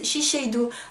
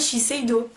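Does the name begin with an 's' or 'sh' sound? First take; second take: sh; s. First: The name begins with an 'sh' sound. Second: The name begins with an 's' sound. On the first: The speaker calls it wrong. "il y a plein de gens qui disent Shiseido" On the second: The speaker calls it right. "c'est bien Shiseido. Oui, il n'y a pas de H"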